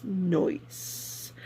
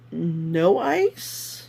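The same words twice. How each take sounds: First: "Noise" run together as one word, soft, rising at the end. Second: "no ice" said as two clear words, no and ice. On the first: Vlogger explaining the show's inside joke, says "Noise" as one soft word. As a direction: blend it into a single quiet "Noise". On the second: Vlogger explaining the show's inside joke, spells out "no ice" as two words. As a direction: split it into "no ice" with a gap between. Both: Shown as a demonstration. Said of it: "inside joke with the whole Noise crew".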